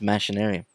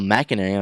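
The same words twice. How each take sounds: First: The start sounds like 'machine', with an sh. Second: The start sounds like 'machination', with a hard k. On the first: The name comes from machines. "this game's about machines. I feel like this game should be pronounced machinarium" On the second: The name could come from machinations. "I guess you could say like machinations"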